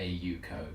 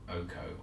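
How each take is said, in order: First: The name begins with an 'ay-you' sound. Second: The name begins with an 'oh' sound. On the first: The speaker calls it right. "it is a Yuko" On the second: The speaker calls it wrong. "not Oko"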